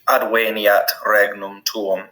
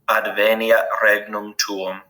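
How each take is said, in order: First: Adveniat has a W sound in the middle. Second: Adveniat has a V sound in the middle. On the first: "the letter V, always makes a W sound" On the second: "the way we would say it in ecclesiastical pronunciation"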